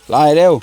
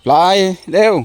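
First: Loud, higher hurry-up call; urging the dog. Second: Much higher, loud insistent call of ปลายเร็ว; ปลายเร็ว pitched way up and pressed hard; sharper urging. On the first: Owner hurrying his dog along, loud urging call. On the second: Owner repeating the hurry-up call to his dog, higher and more insistent. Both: Real, not acted.

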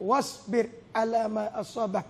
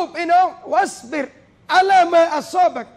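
First: Verse said softly, lower and softer; soft, hushed recitation of the verse; quiet recitation. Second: Verse called out louder and higher; preacher declaims the verse with force; proclaimed verse. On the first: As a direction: murmur the verse gently as to a child. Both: Acted.

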